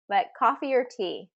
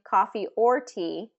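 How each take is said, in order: First: The word 'or' is reduced to a weak 'er'. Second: The word 'or' is said in its full form. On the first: "this one gets reduced frequently to er" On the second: "Instead of saying"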